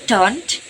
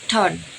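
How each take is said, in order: First: The final t sound is clearly pronounced. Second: The final t sound is dropped.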